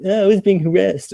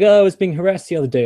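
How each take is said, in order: First: Higher-pitched imitation of an upset woman; retaken victim quote. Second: High, quick mock-victim quote; sarcastic. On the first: Woman confiding she was harassed, acted as a retake. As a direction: redo her complaint in a raised voice. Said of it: "Sorry, I said that in a kind of sarcastic way". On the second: Woman telling of being harassed, voiced sarcastically. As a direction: imitate her complaint with sarcasm. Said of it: "I said that in a kind of sarcastic way".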